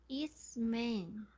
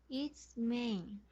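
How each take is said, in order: No difference in how they are said.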